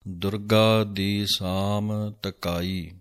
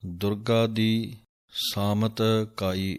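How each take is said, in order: First: ਸਾਮ said apart from ਤਕਾਈ; correct phrasing. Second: ਸਾਮਤ ਕਾਈ run together wrongly; wrong phrasing. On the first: Teacher showing the right split of words. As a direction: break between ਸਾਮ and ਤਕਾਈ. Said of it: "ਸਾਮ ਵੱਖਰਾ ਬੋਲਣਾ ਹੈ". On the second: Teacher showing the mistake to avoid. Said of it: "ਇਸ ਤਰ੍ਹਾਂ ਨਹੀਂ ਪੜ੍ਹਨਾ ਹੈ". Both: Shown as a demonstration.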